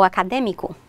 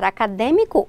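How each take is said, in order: First: Acadêmico with an open stressed é; open vowel. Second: Acadêmico with a closed stressed ê; closed vowel. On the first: Teacher offering both forms, acadêmico with open é. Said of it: "com o som mais aberto". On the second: Teacher offering both forms, acadêmico with closed ê. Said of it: "com circunflexo fechado". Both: Shown as a demonstration.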